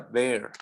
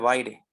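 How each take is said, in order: First: The name is said in its original foreign way. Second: The name is read following its Spanish spelling. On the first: The speaker calls it right. "se pronuncia Bear" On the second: The speaker calls it wrong. "no se pronuncia Baire"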